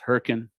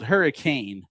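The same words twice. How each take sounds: First: The word is said in the local way. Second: The word is said the way it is spelled. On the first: "but it's pronounced Hurricane" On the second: "spelled hurricane"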